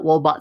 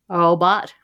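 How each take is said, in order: First: The first R sounds like a W. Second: The first R is weak and incomplete. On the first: "it comes out wobot sometimes" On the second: "where they kind of have the R, but they don't quite have it"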